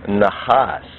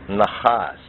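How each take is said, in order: Both takes have the same delivery.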